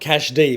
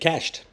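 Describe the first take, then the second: First: It is said as two syllables, cash and D. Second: It is said as one syllable, like cashed. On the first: The speaker calls it wrong. "So it's not cash D" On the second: The speaker calls it right. "but cashed"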